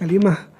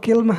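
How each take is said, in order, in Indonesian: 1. Dimulai dengan ka dan ada i setelah l. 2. Dimulai dengan ki dan tidak ada vokal setelah l. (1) "dengan fathah kaf, ka, dan e, kasrah lam, kali" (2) "mengkasrahkan kafnya ... beserta sukun lam"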